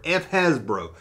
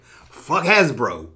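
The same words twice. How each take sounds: First: Said in the usual way. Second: Drawn out, each word set apart; slow quoted title. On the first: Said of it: "Yeah, the F word". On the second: Retold or imitated. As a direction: quote your own video title slowly. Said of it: "That's why I make such videos like".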